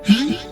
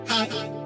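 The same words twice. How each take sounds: First: It is said loudly. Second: It is said quietly.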